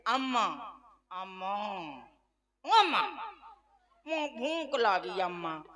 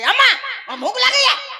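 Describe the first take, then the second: First: It is said sweetly and affectionately. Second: It is said bluntly, without affection.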